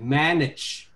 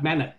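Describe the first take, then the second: First: The final consonant is clearly pronounced. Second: The final consonant is weak or dropped. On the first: The speaker calls it right. "pay attention to the final consonant" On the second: The speaker calls it wrong. "It's not good at all"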